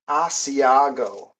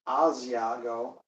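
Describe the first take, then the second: First: The middle consonant is an s sound. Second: The middle consonant is a z sound.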